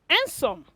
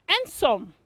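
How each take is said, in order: Both takes have the same delivery.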